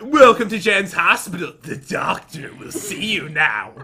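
It is said in a creepy put-on voice. The speaker calls it right.

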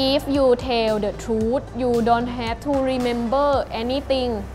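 It is spoken with a Thai accent.

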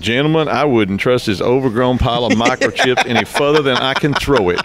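It is spoken in an imitated character accent.

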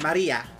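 The name is said in a Spanish accent.

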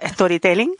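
It is said with a Spanish accent. The speaker calls it wrong. "no decirlo más a la española"

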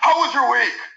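It is said in a blunt, rapport-breaking tone.

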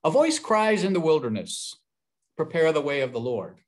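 The pause comes after 'in the wilderness'.

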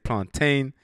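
It is said with an African pronunciation. "Africans say plantain"

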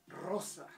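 The middle consonant is a voiceless s sound.

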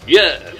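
The word is said loudly, with strong excitement. The speaker calls it right. "you say yes like you mean it"

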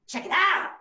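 It is said in a Chicago style.

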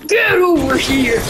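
It is said as a Mortal Kombat impression.

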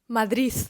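The word ends with an s sound. The speaker is from Asturias. "вимовляє слово «Мадрид» ... як «Мадріс»"

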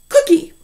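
The syllables are joined in one smooth word. "And then you throw them together"

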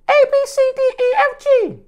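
It is said in a high voice.

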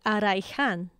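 It is said in a Spanish accent.

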